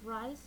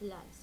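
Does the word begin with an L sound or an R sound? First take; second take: R sound; L sound. First: The word begins with an R sound. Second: The word begins with an L sound. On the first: "difficulty producing R" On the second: "the sounds may replace with other sounds"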